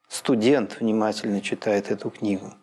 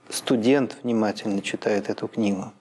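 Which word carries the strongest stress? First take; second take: студент; студент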